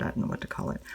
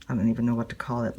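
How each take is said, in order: First: Soft unvoiced mutter repeating "I don't know what to call it"; half to herself, whispering "I don't know what to call it" again; whispered aside. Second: Said in the usual way. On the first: Real, not acted. Musing to herself about her stitching method, whispered.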